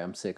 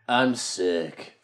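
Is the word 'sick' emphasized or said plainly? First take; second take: plain; emphasized. First: The word sick is said without special emphasis. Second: The word sick is said with strong emphasis.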